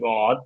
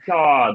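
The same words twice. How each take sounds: First: The word is said with a British vowel. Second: The word is said with an American vowel. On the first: "ইউকেতে গড ঠিক আছে" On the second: "but USA"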